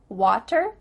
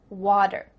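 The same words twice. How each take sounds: First: The middle consonant is a crisp T sound. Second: The middle consonant is a soft D sound. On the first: "do you hear better, water?" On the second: "is going to change to a D"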